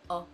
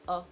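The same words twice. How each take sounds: First: The vowel is said with an open mouth. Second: The vowel is said with an open mouth.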